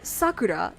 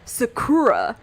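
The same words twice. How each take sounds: First: The stress is on the first syllable. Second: The stress is on the second syllable. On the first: The speaker calls it right. "instead of like" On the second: The speaker calls it wrong. "where the stress is on the second syllable"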